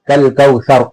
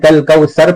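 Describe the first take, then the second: First: The middle consonant is a soft 'th' sound. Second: The middle consonant is a plain 's' sound. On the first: The speaker calls it right. "जबान की नोक दांतों के किनारे को लगाकर सर पढ़ेंगे" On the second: The speaker calls it wrong. "जबान की नोक दांतों के किनारे को नहीं लगाएंगे, तो ये सा की जगह सीन अदा होगा"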